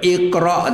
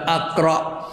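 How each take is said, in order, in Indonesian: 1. Kata ini diawali dengan vokal i. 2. Kata ini diawali dengan vokal a. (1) "Kalau itu baca iqra tu" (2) "tidak aqra"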